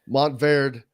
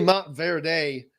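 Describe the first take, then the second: First: The ending blends in without a separate syllable. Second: The ending is stressed as an extra separate syllable. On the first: The speaker calls it right. "it's a part of the Ver, not the. It's not its own" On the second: The speaker calls it wrong. "that's just sounds like country, just putting an extra uh, emphasis"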